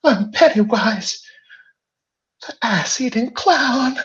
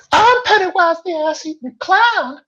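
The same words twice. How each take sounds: First: Very high, loud evil clown voice; Pennywise. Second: Very high, loud, shrieking evil clown; Pennywise. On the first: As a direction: shriek it like a monstrous clown. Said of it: "those famous words". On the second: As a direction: screech it like a monstrous clown. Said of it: "in a high and terrifying voice". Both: Acted.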